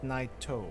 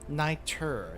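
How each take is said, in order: First: The name ends in an 'oh' sound. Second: The name ends in an 'er' sound. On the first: The speaker calls it wrong. "not Naito" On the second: The speaker calls it right.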